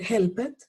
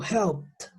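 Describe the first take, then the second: First: "helped" in two syllables, hel-pet; wrong pronunciation. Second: "helped" in one syllable, helpt. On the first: Teacher showing what not to say, mispronounced. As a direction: sound the e in "helped". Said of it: "yo no puedo decir". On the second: Teacher modelling the correct form, T ending. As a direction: end "helped" on a crisp t. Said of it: "se van a pronunciar como una T". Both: Shown as a demonstration.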